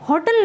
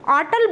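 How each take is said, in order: First: The word starts with an h sound. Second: The word starts without an h sound. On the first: This is how it is said in India. "होटल नहीं बोला जाता" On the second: This is how it is said outside India. "India के बाहर होटल को आटल बोला जाता है"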